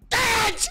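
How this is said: It is said with strong, loud anger.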